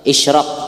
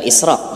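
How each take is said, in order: First: The consonant after the first vowel is 'sh'. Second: The consonant after the first vowel is 's'. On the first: The speaker calls it right. "Pakai shin ya lah, israq bukan israq" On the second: The speaker calls it wrong. "bukan israq. Mun israq tuh sako layau teka malik maknanya"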